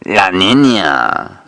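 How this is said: It is said in a Mexican drug-lord accent.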